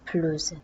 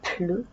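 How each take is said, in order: First: The word ends in a Z sound. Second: The final S is silent.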